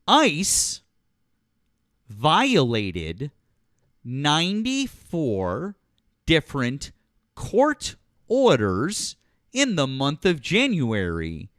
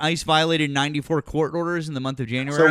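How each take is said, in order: First: It is said slowly and deliberately. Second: It is said at normal speed.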